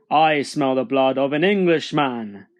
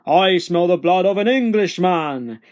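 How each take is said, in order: First: Heavy, emphatic giant voice; firm, looming giant declaration; menacing giant. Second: Loud, raised giant roar; thundering storybook giant declaration. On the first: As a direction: announce it as a hungry storybook giant. Giant sniffs out hidden Jack. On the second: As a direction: bellow it on the chase. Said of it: "roared the giant". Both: A narrator's reading.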